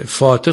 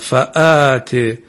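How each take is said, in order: First: No glottal stop; the word runs as 'fāte'. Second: A glottal stop and long vowel follow 'fa'. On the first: The speaker calls it wrong. "فاته خونده نشه" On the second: The speaker calls it right. "اینجا حتما همزه با الف به درستی خونده بشه"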